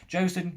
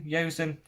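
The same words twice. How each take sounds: First: Josen said with an initial J sound; unsure pronunciation. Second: Yosen said with an initial Y sound; unsure pronunciation. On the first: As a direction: try "Josen" with a hard J, as a higher-pitched question. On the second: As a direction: Yosen opening on Y, unsure of the name. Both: Real, not acted. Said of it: "I don't know how to say it".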